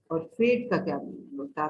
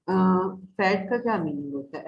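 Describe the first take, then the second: First: फेड said with a long a, like the letter's name; long a in fade. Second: फैड said with a short, open a; short a in fad. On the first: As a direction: stretch the a in फेड. (फेड की लंबी ए वाली आवाज़) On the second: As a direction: keep फैड short, like bat. (फैड की छोटी ऐ वाली आवाज़) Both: Shown as a demonstration. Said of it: "आप इसका कंपैरिजन कर सकते हैं".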